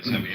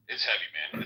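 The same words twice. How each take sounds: First: "heavy" said louder and pressed hard; emphatic repeat. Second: Said in the usual way. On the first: Real, not acted. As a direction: lean into "It's heavy" with extra weight.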